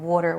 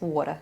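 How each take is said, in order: First: It is said in a plain, neutral accent. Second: It is said in a Long Island accent. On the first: The speaker calls it wrong. "I didn't even say it right" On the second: The speaker calls it right. "It's water"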